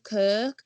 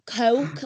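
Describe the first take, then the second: First: "Kirk" for Coke, with a long er vowel; drawn-out "Kirk" with Hull's er sound. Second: "Coke" with a clear oh glide; careful "Coke", oh in place of Hull's er; standard pronunciation of Coke. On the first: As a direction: say Coke as "Kirk", Hull style. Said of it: "So the ers still cause me a problem". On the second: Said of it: "like that". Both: Retold or imitated.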